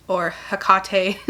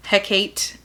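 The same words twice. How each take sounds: First: "Hecate" said as huh-KAH-tay, three syllables; second pronunciation. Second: "Hecate" said as HEK-ate, two syllables; first pronunciation. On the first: Reviewer offering another guess at the queen's name, huh-KAH-tay. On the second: Reviewer trying the queen's name, first guess, HEK-ate. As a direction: say "Hecate" like heck plus ate. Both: Shown as a demonstration. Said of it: "however you say her name".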